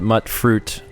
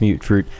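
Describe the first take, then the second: First: The first word rhymes with 'hut'. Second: The first word rhymes with 'cute'. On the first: The speaker calls it wrong. "I had pronounced it mutt fruit" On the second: The speaker calls it right. "someone else corrected me, said it's mute fruit"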